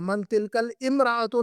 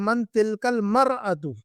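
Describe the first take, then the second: First: The last word begins with 'imra' and has an 'i'. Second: The last word begins with 'mar' and has no 'i'. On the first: The speaker calls it wrong. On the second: The speaker calls it right.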